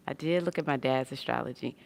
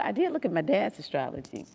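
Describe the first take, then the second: First: Said in the usual way. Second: "did" lifted, higher correction; "did" stressed, higher. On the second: Real, not acted. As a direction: lean on "did" as you correct yourself. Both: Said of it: "repeat of same words".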